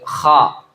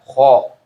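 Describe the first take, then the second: First: The vowel is a clear, open 'a'. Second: The vowel is a rounded 'o'. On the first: The speaker calls it right. "seperti kha" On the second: The speaker calls it wrong. "bukan kho"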